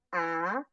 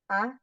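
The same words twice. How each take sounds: First: The vowel is long. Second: The vowel is short. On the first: "Yang panjang" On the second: "Yang pendek misalnya"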